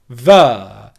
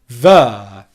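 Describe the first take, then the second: First: The word begins with a V sound. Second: The word begins with a V sound.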